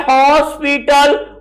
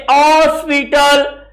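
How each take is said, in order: First: हॉस्पिटल with an audible initial h; h sounded in hospital. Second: हॉस्पिटल opening on a pressed vowel, h nearly dropped; pressure on the O. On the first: Teacher naming the written word, h-sounded हॉस्पिटल. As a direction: start हॉस्पिटल on a clear h. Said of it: "ऐसे ही होता है". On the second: Teacher showing how it is said, vowel-led हॉस्पिटल. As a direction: lean on the first vowel of हॉस्पिटल, as "ऑस्पिटल". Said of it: "ओ का वहां pressure ज्यादा". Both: Shown as a demonstration.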